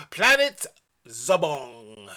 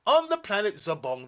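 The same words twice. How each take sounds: First: Big rising Planet, then a low drawn-out Zobong; dramatic announcement. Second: Said in the usual way. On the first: Acted.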